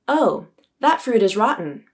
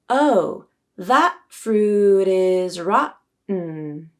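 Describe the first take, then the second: First: The sentence is spoken at a normal pace. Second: The sentence is spoken slowly. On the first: "I'll say the sentence at my normal pace" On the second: "and then I'll say it slowly"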